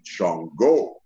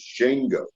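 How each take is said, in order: First: The name has a deeper-sounding pronunciation. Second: The name has a light, country-sounding pronunciation. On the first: This is the pronunciation chosen for the character. "I pronounced it Shango because I made it a little deeper" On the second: This is the original, correct pronunciation. "the correct pronunciation of it is Shango. But I thought Shango sounded country"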